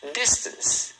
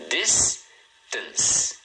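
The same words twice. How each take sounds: First: Said in the usual way. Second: "Distance" split into DIS, pause, TANCE; "Distance" broken in two with a gap; syllable by syllable. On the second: Shown as a demonstration. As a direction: say "Distance" in two separate beats. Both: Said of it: "tá vendo?".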